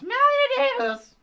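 It is said in a shrill whine.

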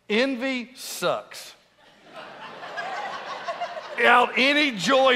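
There is a pause after 'sucks'. Envy is bad.

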